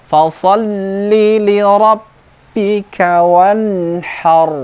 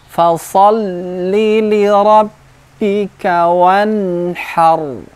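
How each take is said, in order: No difference in how they are said.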